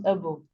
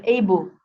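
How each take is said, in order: First: Able as uh-bul, weak first vowel; reduced suffix vowel. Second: Able as AY-bul, long first vowel; full vowel. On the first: Teacher giving the suffix form, able as uh-bul. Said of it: "if it's attached as a suffix". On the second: Teacher giving the standalone word, able as AY-bul. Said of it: "a normal word, it is able". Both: Shown as a demonstration.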